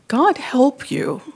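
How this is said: It is said sincerely.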